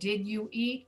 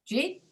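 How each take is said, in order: First: Each of the three words is said separately. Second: The words blend into one short syllable. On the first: "you asked them to slow it down" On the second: "So we reduce the rest"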